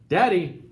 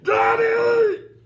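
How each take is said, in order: First: It is said very quietly. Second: It is yelled as loud as possible.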